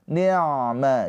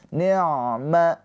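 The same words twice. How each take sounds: The two takes are said the same way.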